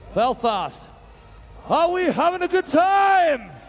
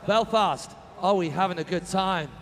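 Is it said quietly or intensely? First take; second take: intensely; quietly. First: It is said loudly, with high energy. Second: It is said quietly, with low energy.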